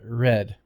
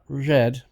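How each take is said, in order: First: The R is made further forward, without friction. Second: The R is made far back, with friction. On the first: The speaker calls it right. "but red" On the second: The speaker calls it wrong. "Not red"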